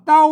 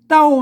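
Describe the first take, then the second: First: The word is said with a low tone. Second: The word is said with a falling tone. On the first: "ภาษาไทยนะเพิ่นอ่านว่าอย่างนี้อ่านว่าเต่า" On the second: "เต้ามันเสียงโทพิเศษนะครับ"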